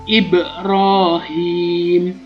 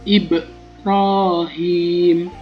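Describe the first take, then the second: Both takes have the same delivery.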